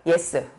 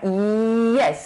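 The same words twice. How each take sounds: First: It starts plainly, with no drawn-out glide. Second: It starts with a drawn-out y glide. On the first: The speaker calls it wrong. "그냥 우리가 yes 이게 아니라" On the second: The speaker calls it right. "yes 이러잖아요. 이 이렇게 끌고 오잖아요"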